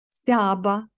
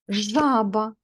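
First: The word begins with an st cluster. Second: The word begins with a zh sound. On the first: The speaker calls it wrong. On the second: The speaker calls it right.

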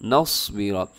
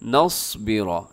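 No difference in how they are said.

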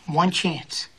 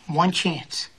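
No difference in how they are said.

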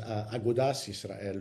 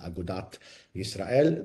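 First: The first word ends with an s sound. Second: The first word ends with a t sound. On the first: This is the older, non-Hebraized form of the name. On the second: This is the later Hebraized form of the name.

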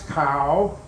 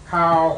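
First: The pitch rises across the syllable. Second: The pitch stays level in the middle range. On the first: "it becomes a rising tone" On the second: It means a putrid, fishy smell. "Now we have a mid-tone"

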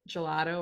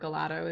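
First: Gelato is said with a standard pronunciation. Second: Gelato is said with a Michigan regional pronunciation.

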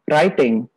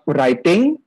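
First: The word begins with an R sound. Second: The word begins with a W sound. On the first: The speaker calls it right. "but writing" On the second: The speaker calls it wrong. "We do not pronounce it with W. W sound. Wuh. No. Not writing"

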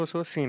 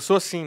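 First: It is said in a plain, normal way. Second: It is said in a marked, emphatic way. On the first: "falando normal" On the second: "Aí depois eu falo assim"

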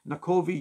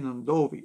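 First: The middle consonant is a plain k sound. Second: The middle consonant is a nasal nd sound. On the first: The name is read straight from its spelling. The speaker calls it wrong. "you look at that on the bus and you go, where is that?" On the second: The name is said the way locals say it. The speaker calls it right. "people will tell you it's actually Nandovi"

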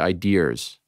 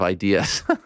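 First: The word ends with an added r sound. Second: The word ends without an added r sound. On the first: "I love how Australian people, or at least people with Australian accents, say ideas" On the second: "instead of ideas. There's in the end"

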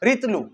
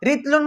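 First: The word ends on a vowel without n. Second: The word ends with an n sound. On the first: "আমি যদি এটা এভাবে বলি" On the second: "রিতলুন মানে এক রিতিল"

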